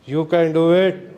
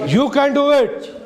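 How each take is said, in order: First: It is said in a sad tone. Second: It is said in an angry tone.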